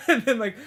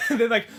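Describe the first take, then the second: No difference in how they are said.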